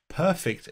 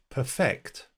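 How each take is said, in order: First: The stress is on the first syllable. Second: The stress is on the second syllable. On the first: It describes English that has no mistakes. "in which case perfect is an adjective describing the English" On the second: It means to make your English better. "if we change the emphasis, we turn it into a verb"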